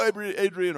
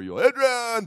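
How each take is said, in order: First: "Adrian" called loud and high with the weight on its first syllable; mock emphatic call. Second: "Adrian" bellowed high and slow, stretched on its last syllable; mock drawn-out bellow. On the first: Preacher showing Rocky's line, "Adrian" stressed early and loud. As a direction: punch the start of "Adrian", loudly. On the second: Preacher showing Rocky's other emphasis, "Adrian" bellowed long and high. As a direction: holler "yo, Adrian", stretching the end of "Adrian". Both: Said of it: "where you put the emphasis".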